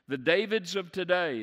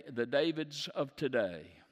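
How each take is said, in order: First: The Davids of today repeated higher and louder, falling at the end; emphatic repeat. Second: Said in the usual way. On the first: Acted.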